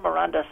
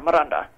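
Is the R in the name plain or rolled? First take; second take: plain; rolled. First: The R is said plainly, not rolled. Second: The R is rolled with a trill. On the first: The speaker calls it wrong. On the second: The speaker calls it right.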